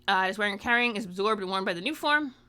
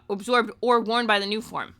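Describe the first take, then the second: First: Said in the usual way. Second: Or stressed and louder in correction; correcting yourself by hitting or. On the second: Real, not acted.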